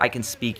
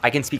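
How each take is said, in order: First: The voice is low and deep. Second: The voice is high-pitched and nasal. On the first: "a lot deeper" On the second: "like higher pitched"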